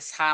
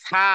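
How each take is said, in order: First: It begins with a plain hissing s sound. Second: It begins with a th sound between teeth. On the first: The speaker calls it wrong. "এ কিন্তু ওই ছয় আকারে সা নয়" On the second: The speaker calls it right. "এটা হলো সা"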